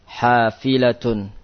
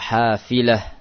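First: The word ends with the full -atun ending. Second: The word ends cut short in -ah. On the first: The word is read without stopping on it. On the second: The reader stops on the word.

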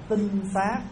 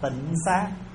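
First: The first syllable has a level tone. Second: The first syllable has a low glottalized tone. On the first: The speaker calls it right. "đúng chữ là tinh xá" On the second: The speaker calls it wrong. "mình gọi trại chữ"

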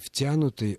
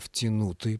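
First: The stress is not placed as in втянуть. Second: The stress is placed as in втянуть. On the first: This is the form actually in use. "не «втянутый»" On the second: This form would follow the verb's logic. "потому что образовано от «втянуть». Даже вот произнести-то трудно"

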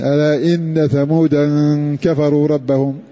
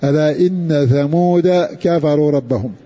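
First: Thamud ends with an added nasal -an ending. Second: Thamud ends without any added nasal -an ending. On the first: This follows the reading of the other reciters. "والباقون بالتنوين" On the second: This follows the reading of Hafs and Hamza. "في هود ترك التنوين"

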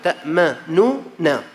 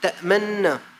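First: Two separate n sounds, the first with u. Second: A single merged n sound followed by a. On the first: This is the original form of the word. "في نونتين، واحدة مضمومة واحدة مفتوحة" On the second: This is the form used in the recited text. "حذف النون الأولى المضمومة وأبقى النون الثانية المفتوحة"

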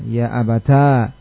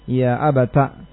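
First: The word ends in a long a vowel. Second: The word ends in a short a vowel. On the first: "mengumpulkan antara ta dengan alif" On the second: "dengan menfathah ta'nya"

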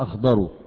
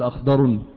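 First: The word ends without an added n sound. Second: The word ends with an added n sound. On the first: The speaker calls it right. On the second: The speaker calls it wrong.

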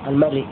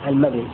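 Both takes have the same delivery.

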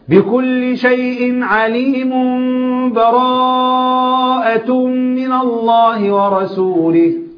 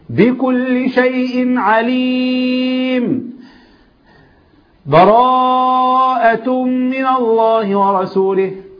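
First: The words run on with no pause. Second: There is a full stop with a breath. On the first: The reciter joins the two surahs together. "الوسط" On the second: The reciter fully stops between the surahs. "القطع ... قطع وخد نفسه"

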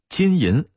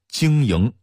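First: It is said with a standard Mandarin pronunciation. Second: It is said with a Datong dialect pronunciation.

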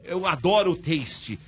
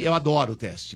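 First: The last word has an 'ay' vowel sound. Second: The last word has an 'eh' vowel sound. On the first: The speaker calls it right. "É taste. ... vou falar agora" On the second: The speaker calls it wrong. "É teste ou é taste?"

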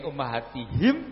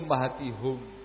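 First: The last syllable has the vowel i. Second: The last syllable has the vowel u. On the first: "Jadi bukan tihim tapi tihum" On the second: "dengan membomah ha"

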